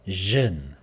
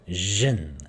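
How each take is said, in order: Both takes have the same delivery.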